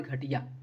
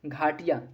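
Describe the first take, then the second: First: घटिया with a short a after the gh, ghuh-tiya; the wrong form घटिया, short a; wrong short vowel. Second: घाटिया with a long aa, ghaa-tiya; घाटिया with a long first vowel, ghaa; correct long vowel. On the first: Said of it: "sorry, घटिया नहीं". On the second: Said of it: "घाटिया है". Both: Shown as a demonstration.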